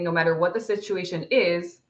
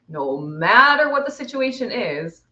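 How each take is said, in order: First: It is read at a normal pace. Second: It is read at a slower pace.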